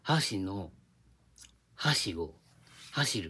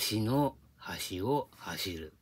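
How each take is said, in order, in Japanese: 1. 関西のアクセントだ。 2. 標準語のアクセントだ。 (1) "関西なら" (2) "横浜なら"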